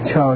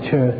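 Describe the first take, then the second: First: The vowel sounds like an o. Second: The vowel sounds like a u. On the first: The speaker calls it wrong. "You don't say Cho" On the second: The speaker calls it right. "you say Chu"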